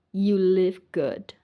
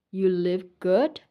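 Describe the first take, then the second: No difference in how they are said.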